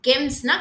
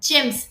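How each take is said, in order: First: The word starts with a hard g sound. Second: The word starts with a j sound. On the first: The speaker calls it wrong. "கெம்ஸ்ன்னா கிடையாது" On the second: The speaker calls it right. "ஜி-இ-எம்-எஸ் ஜெம்ஸ்"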